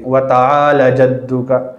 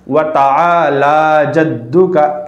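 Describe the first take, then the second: First: The vowel after the L is cut short. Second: The vowel after the L is held long. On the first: The speaker calls it wrong. "लाम को खींचने के बजाय जल्दी पढ़ देते हैं" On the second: The speaker calls it right. "जबकि लाम को खींचना है"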